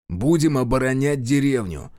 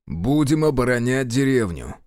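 First: Mildly irritated, firm retort; snapping back. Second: Firm, measured insistence; stubborn. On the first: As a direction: snap back with understated edge. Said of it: "огрызнулся Решетов". (огрызаясь, сдержанно) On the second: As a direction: hold your ground with restrained doggedness. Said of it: "упорно повторил Решетов". (упорно, сдержанно) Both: A narrator's reading.

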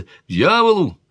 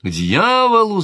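First: King shouting. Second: High, loud repeated shout; king shouting. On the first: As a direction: fling it out at full volume. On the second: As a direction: hurl the curse again just as hard. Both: A narrator's reading. King shouting at his sister about the hunt. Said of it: "закричал король".

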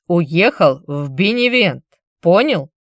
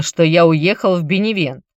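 First: «Уехал в Беневент» slow, every word pressed; stressing each word. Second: Said in the usual way. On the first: Acted. Vinicius drills the message into Chilon, each word pressed slowly. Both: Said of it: "подчёркивая каждое слово".

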